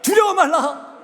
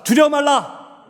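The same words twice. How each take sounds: First: It is said loudly and forcefully. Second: It is said at a normal loudness.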